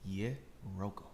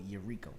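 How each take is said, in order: First: The middle syllable sounds like 'ro'. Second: The middle syllable sounds like 'ree'. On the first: The speaker calls it right. "It's honestly a very simple name" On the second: The speaker calls it wrong. "I hate when people see the spelling of my name and they go Eureka"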